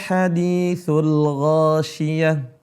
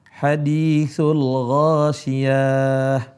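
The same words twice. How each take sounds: First: The vowel on ya is kept short. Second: The vowel on ya is drawn out long. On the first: The speaker calls it right. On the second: The speaker calls it wrong.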